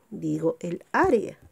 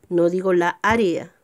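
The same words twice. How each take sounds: First: El área, said clearly; correct article. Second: La área, the wrong form; wrong article. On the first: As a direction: say el área, with el before área. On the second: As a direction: say la área with la before área. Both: Shown as a demonstration.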